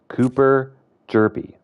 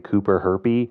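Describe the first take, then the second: First: The surname begins with a J sound. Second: The surname begins with an H sound. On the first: The speaker calls it right. "it's actually the H is silent" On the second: The speaker calls it wrong. "I thought it was a silent J"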